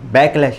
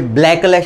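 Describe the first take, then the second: First: No L sound follows the first B. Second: An extra L sound follows the first B. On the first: The speaker calls it right. "बॅकलॅश आहे" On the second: The speaker calls it wrong. "याला इंटरव्ह्यूमध्ये ब्लॅकलॅश म्हणू नका"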